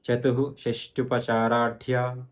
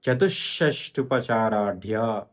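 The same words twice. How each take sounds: First: "చతుః" said as chatu-hu, then "షష్టుపచారాఢ్య" slowly; విసర్గం విడదీసి. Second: "చతుషష్టుపచారాఢ్య" slowly, with a long doubled sh after chatu; no hu, press the sh in "చతుషష్టుపచారాఢ్య"; విసర్గం పొల్లు షా. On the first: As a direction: sound a separate hu at the end of "చతుః". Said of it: "తు తర్వాత విసర్గం ఉంది". ("చతుః"లో "హు" విడిగా, నెమ్మదిగా పలకాలి) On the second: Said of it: "విసర్గము పొల్లు షాగా మారుతుంది". ("చతుషష్టుపచారాఢ్య"లో ష్ష ఒత్తి పలకాలి) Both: Shown as a demonstration.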